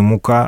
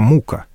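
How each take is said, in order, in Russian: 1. Ударение на втором слоге. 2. Ударение на первом слоге.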